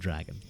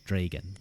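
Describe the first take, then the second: First: The first vowel sounds like the a in cat. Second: The first vowel sounds like the e in bed. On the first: The speaker calls it wrong. "not dragon" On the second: The speaker calls it right. "it is D R E G A N"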